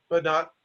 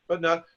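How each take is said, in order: No difference in how they are said.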